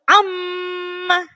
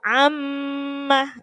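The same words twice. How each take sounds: First: The doubled m is pressed hard. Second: The doubled m flows into a nasal hum. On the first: The speaker calls it wrong. "nggak perlu amma, nggak usah ditekan lagi" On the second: The speaker calls it right. "langsung mengalir ke dengung"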